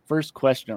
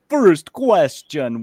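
First: It is said in a normal speaking voice. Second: It is said in a put-on character voice.

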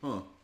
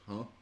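First: The 'huh' sounds bright and excited. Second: The 'huh' sounds flat and puzzled. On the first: The idea turned out to be pleasantly surprising. "my tone has shifted to an enthusiastic" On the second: The idea seemed doubtful at first. "the first reaction was like"

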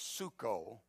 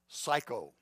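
First: It is said with an oo vowel, suko. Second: It sounds like the English word psycho. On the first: "the actual pronunciation is suko" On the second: "It's the Greek word psycho"

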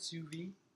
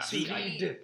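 First: It ends without a D sound. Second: It ends with a clear D sound. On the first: The speaker calls it wrong. "am I pronouncing it right?" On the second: The speaker calls it right. "I think you add the D"

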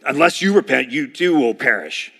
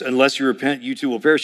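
First: It is read in a harsh tone. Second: It is read in a neutral tone.

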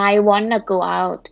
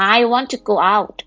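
First: Want to is run together quickly as wanna. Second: Want and to are said as two full words. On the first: "แต่ภาษาอังกฤษเราจะใช้กันแบบ wanna" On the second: "ก็คือจริงๆมาจาก want to"

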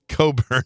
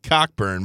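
First: The first syllable has no k sound: 'co'. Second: The first syllable has a k sound: 'cock'. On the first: This is how the family says it. "but they call it Coburn" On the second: This is how the spelling suggests it. "It looks like it should be pronounced Cockburn"

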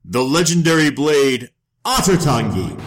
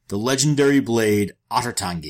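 First: It is said in a grand, dramatic way. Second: It is said in a plain, matter-of-fact way.

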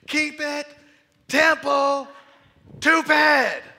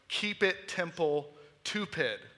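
First: The phrase is shouted at a loud volume. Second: The phrase is said at a normal volume. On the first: "he literally stood up and was screaming" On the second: "the phrase he kept saying was"

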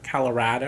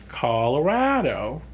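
First: The stress falls on a syllable other than 'ra'. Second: The stress falls on the 'ra' syllable. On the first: The speaker calls it wrong. "I think you emphasized the wrong part of the word" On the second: The speaker calls it right. "Just think of rad. ... There you go"

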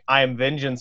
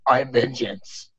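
First: It is said in a plain, normal voice. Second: It is said in a deep Batman growl.

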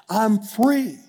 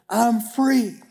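The two takes are said the same way.

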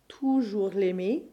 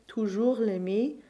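First: Extra stress falls on the first syllable of toujours. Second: The stress falls on the final syllables as usual. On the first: "give slightly more stress to the first syllable of either of these words" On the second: "rather than always saying toujours l'aimer"

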